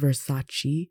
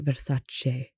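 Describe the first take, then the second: First: The word ends in a chee sound. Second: The word ends in a cheh sound. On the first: The speaker calls it wrong. "Westerners have this weird obsession with overpronouncing E's" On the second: The speaker calls it right. "it's actually Versace. So the CE sound is a CHE sound"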